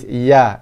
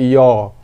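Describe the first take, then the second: First: The syllable is said with a thin vowel. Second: The syllable is said with a thick vowel. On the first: The speaker calls it right. "Ya-nya nipis" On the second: The speaker calls it wrong. "bukannya yo"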